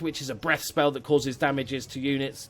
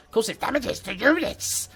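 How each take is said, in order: First: Said in the usual way. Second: High, slow ratty creature voice; Rat Man voice. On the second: Retold or imitated. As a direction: squeak it out slowly like a rat man. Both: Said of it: "That's my best Rat Man impression".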